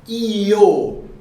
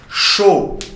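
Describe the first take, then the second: First: It is said in a Central American Spanish way. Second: It is said in a South American Spanish way. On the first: "Na América Central, ... é bem mais sutil, tá? Eles falam assim" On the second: "E na América do Sul, ... eles chamam assim"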